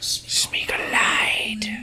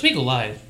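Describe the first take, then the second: First: It is said slowly, with heavy emphasis. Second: It is said at normal speed, without emphasis.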